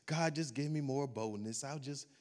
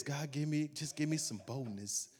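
First: A weak, much softer mock prayer, trailing off; mock timid prayer. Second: Soft, meek mock plea, sinking away; mock timid prayer. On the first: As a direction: pray it meekly, almost under your breath. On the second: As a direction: beg for boldness without any. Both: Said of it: "and you pray like this".

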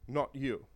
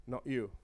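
First: "Not" stressed, "you" falls away; quiet but firm on "Not". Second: "you" carries the fall, "not" kept light; quiet, landing on "you"; soft, pointed "you"; stress on you. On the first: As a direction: press the word "Not". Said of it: "stress on not". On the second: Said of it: "stress on you". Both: Shown as a demonstration.

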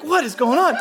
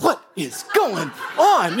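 First: Higher, lifted disbelieving question; high bewilderment. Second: Slow, stretched-out bewildered question; slow bewilderment. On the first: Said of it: "I'm like". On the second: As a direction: drag it out like you can't believe it. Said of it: "And I'm like". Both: Retold or imitated.

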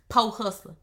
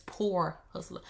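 First: "po hustler" with the r dropped, said "poh"; imitating granddaddy's "po hustler"; grandfather's "po". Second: Said in the usual way. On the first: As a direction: say "po" like "poh", no r sound. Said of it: "but he say po". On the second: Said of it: "but it's poor hustler".

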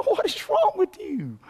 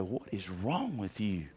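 First: High mock disbelief. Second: Quiet, understated bewilderment; hushed disbelief. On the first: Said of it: "I just wanna look at people". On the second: Retold or imitated. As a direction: murmur it like a puzzled outsider. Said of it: "they look at you and go".

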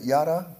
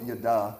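First: YADA said YAH-duh, rising as a question; first-syllable stress. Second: Yada said yuh-DAH; second-syllable stress. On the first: Preacher checks how to pronounce the word, Yada as YAH-duh. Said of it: "how do you pronounce it". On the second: Preacher admits how he always calls it, yada as yuh-DAH. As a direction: put the weight on the end of yada. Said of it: "I always call it yada". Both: Shown as a demonstration.

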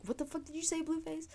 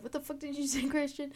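First: Higher, mock-tough snarl; imitating angry boyfriend. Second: Imitating angry boyfriend. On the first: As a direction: play the offended boyfriend, pitched up. Boyfriend confronts Blueface in dream. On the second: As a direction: redo the offended boyfriend, pitched up.

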